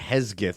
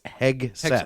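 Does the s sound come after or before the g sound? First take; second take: before; after. First: The s sound comes before the g sound. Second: The s sound comes after the g sound. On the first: The speaker calls it wrong. "I was putting the S before the G" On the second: The speaker calls it right. "It's Hegseth"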